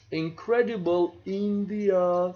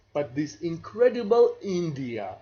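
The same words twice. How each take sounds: First: A light, inviting tourism-ad read of the slogan. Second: Said in the usual way. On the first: Shown as a demonstration. Lecturer trying the tourism ad for students, mild ad-slogan delivery. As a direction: sell the country like the ad, lightly. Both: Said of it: "so I cannot say this".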